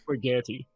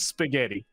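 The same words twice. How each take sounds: First: The word begins with an 'sh' sound. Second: The word begins with an 's' sound. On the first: This is a family member's Hungarian-influenced way of saying it. The speaker calls it wrong. "sh- spaghetti" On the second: This is how everyone else, including Italians, says it. The speaker calls it right. "like everyone else"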